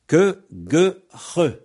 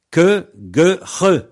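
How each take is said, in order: First: Que, gueux, re higher, firmly articulated; mutation series again. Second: Que, gueux, re called out higher and louder; mutation series. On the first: Teacher repeating the drill for listeners, high and clear. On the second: Teacher drilling radio learners, loud and deliberate. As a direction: announce que, gueux, re clearly, one by one. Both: Shown as a demonstration. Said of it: "voilà un exemple de mutation".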